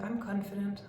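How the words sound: It sounds unsure, weak and bored. The speaker does not really believe it. The speaker calls it wrong. "One is like, no, no, no, no, I'm not sure, I'm really bored by everything"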